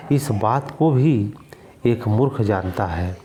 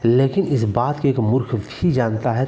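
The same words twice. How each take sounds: First: इस बात को भी said slowly, भी drawn out; slow deliberate. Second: भी in मूर्ख भी जानता given weight; stress on भी. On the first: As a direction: spell it out slowly for the class. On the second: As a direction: lean on भी to show emphasis. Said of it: "तो भी जो निपात है". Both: Shown as a demonstration.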